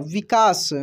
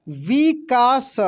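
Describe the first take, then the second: First: Said in the usual way. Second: विकास slowly as vi, kaa, sa; syllable by syllable. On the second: Shown as a demonstration. Teacher reading for learners, विकास slowly syllable by syllable. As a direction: stretch out each syllable of विकास. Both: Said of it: "अब direct पढ़ते हैं".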